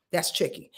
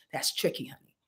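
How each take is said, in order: First: Said in the usual way. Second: A breathy hushed aside before repeating it; whispered aside. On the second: Real, not acted. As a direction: whisper it, almost to yourself. Aside to viewer, then repeated.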